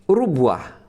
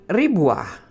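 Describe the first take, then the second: First: The first vowel is u. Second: The first vowel is i. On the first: "dengan didommah ra-nya" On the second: "dengan kasrah pada huruf ra-nya"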